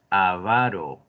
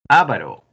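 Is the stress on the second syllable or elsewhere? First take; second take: second; elsewhere. First: The stress is on the second syllable. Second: The stress is not on the second syllable. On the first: The speaker calls it right. "es avaro" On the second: The speaker calls it wrong. "No es avaro"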